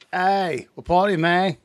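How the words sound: It is said in an attempted New Zealand accent.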